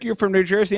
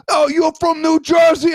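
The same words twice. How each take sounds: First: Said in the usual way. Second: High, loud exaggerated New Jersey accent; hammed-up Jersey accent, nearly shouted; mock New Jersey accent. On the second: Host imitating people teasing him, loud mock New Jersey accent. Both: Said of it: "just like when people talk".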